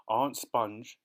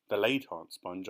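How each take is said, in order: First: Said in the usual way. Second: "late" leaned on as a correction; stress on late. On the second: Shown as a demonstration. Narrator correcting herself, stressing "late". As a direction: correct yourself, pressing "late". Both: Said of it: "I mean".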